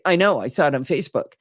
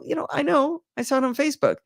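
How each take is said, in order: First: It sounds curt and dismissive. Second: It sounds relaxed and casual.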